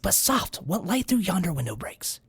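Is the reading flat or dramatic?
dramatic. It is read in a grand, dramatic way.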